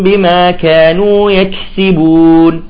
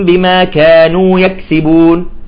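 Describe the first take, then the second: First: The k sound is short with light breath. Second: The k sound is swallowed and barely heard. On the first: The speaker calls it right. "نعطيها الهمس البسيط" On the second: The speaker calls it wrong. "يأكل الكاف"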